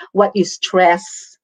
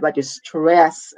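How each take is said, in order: First: Slow, with WHAT punched; "what" hit hard, then "you stress" said slowly; stress demo. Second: Slow, leaning on "stress" and stretching it; "stress" drawn out and weighted, "what you" light. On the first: Teacher showing students how stress works, slow and deliberate. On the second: Teacher repeating the phrase with stress on the last word, slowly. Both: Shown as a demonstration. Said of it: "Like what I just did".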